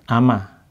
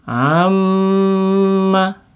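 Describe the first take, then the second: First: The m sound is short and single. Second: The m sound is held long and doubled. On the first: "kalau nggak ada apa namanya tasdidnya kan ama" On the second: "kalau ini kan jadi apa? Amma"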